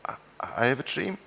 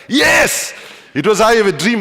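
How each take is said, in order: First: Soft, tentative reply with a rising end; quiet, hesitant and gentle, voice going up; gentle answer. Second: High, loud imitation of an exasperated heckler; acted-out outraged yell, pitched way up; shouting back. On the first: Retold or imitated. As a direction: answer very gently, lifting into a timid question. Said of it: "I answered very gently". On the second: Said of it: "she shouted back".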